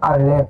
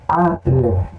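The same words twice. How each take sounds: First: The stress is on the last syllable. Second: The stress is on the first syllable. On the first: The speaker calls it wrong. "Algumas pessoas falam aleph" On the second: The speaker calls it right. "Olha o acento aqui em cima dele, está dizendo que é aleph"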